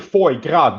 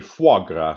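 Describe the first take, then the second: First: The first word is said like English 'foy'. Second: The first word is said like French 'fwa'. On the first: The speaker calls it wrong. "you don't say" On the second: The speaker calls it right. "You say"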